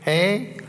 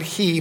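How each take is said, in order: First: The vowel is an 'ay' sound. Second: The vowel is an 'ee' sound. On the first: The speaker calls it right. "but hey" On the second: The speaker calls it wrong. "Not he"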